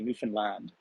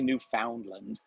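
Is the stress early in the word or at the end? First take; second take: end; early. First: The stress falls on the last syllable. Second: The stress falls early in the word. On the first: The speaker calls it right. "so the emphasis is at the end of the term" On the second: The speaker calls it wrong. "they don't say Newfoundland"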